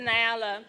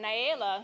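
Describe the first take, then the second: First: The name is said with a short A vowel. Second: The name is said with a long A vowel. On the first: The speaker calls it wrong. "not the short A" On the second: The speaker calls it right. "Long A"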